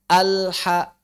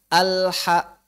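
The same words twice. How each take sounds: No difference in how they are said.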